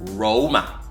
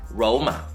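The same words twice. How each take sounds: First: The name begins with an R sound. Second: The name begins with an R sound.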